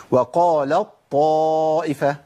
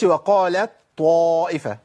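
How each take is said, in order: First: وقالت طائفة as "waqalat-taaa'ifa", ت replaced by a doubled ط, long madd; full idgham into ta'. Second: وقالت طائفة with a separate light ت before ط; wrong unmerged ta. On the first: Teacher reciting the rule correctly, ت merged into ط. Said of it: "التاء عندي بتذهب بالكلية وتبدل بطاء". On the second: Teacher showing what not to say, ت left unmerged. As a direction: keep the ت of وقالت audible, then ط. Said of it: "ما أقولش". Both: Shown as a demonstration.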